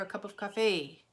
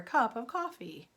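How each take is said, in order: First: It is said with a French accent. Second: It is said with an American accent. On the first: "they would ask for" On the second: "where an American would ask for"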